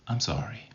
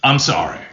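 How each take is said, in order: First: Quiet, subdued apology; soft apology. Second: Punched-out, curt sorry; blurted apology at full voice; forceful apology. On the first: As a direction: say sorry very softly. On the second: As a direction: throw the apology out hard. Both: Shown as a demonstration. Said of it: "it's how you say it".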